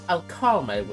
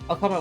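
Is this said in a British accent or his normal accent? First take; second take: British; normal. First: It is said in an attempted British accent. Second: It is said in his ordinary accent. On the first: "Let's try British" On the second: "do my regular voice"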